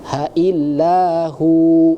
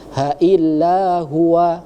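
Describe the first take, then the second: First: It ends on a long 'hu' without 'wa'. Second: It ends with the full syllable 'huwa'. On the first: The speaker calls it right. "dibacanya seperti itu" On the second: The speaker calls it wrong. "Jangan dibaca ha illa huwa, salah"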